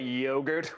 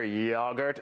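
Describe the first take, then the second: First: The first vowel is a long 'oh' sound. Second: The first vowel is a short 'o' sound. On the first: This is the American way of saying it. The speaker calls it wrong. "we say yogurt with a hard O" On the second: This is the British way of saying it. The speaker calls it right. "when I hear yogurt"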